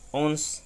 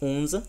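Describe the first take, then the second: First: The final e is silent. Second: The final e sounds like a small a. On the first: This is the standard international pronunciation. "la pronunciación internacional" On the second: This is how some regional speakers say it. "la pronuncian como si fuera una pequeña A"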